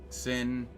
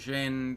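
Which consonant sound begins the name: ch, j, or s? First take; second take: s; j. First: The name begins with an s sound. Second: The name begins with a j sound. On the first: "that can be pronounced multiple ways" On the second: "that can be pronounced multiple ways"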